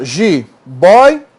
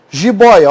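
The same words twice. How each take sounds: First: "Jiboia" split as ji, boi, a; slow "Jiboia" down into three separate pieces; syllable by syllable. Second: Said in the usual way. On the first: Shown as a demonstration. Teacher showing the word's division, syllable by syllable. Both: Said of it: "olha só".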